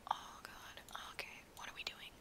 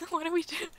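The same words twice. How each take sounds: First: Breathy whisper to herself; hushed self-talk. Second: High giggly question through laughter; amused laughing repeat. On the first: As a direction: whisper it under your breath. Muttering to self in VR. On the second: Same words, laughing aloud. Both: Real, not acted.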